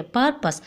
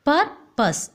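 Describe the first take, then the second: First: Said in the usual way. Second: "Purpose" broken into two separate beats; split into syllables. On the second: Shown as a demonstration. Teacher showing how to split the word, syllable by syllable. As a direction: pause between the halves of "Purpose". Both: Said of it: "oh, split the word".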